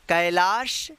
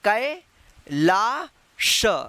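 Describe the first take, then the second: First: The word is said smoothly without pauses. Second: Each syllable is said separately with pauses. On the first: "या इसको direct भी पढ़ना सीख सकते हैं" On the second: "इसको आप उच्चारण करके भी पढ़ना सीख सकते हैं"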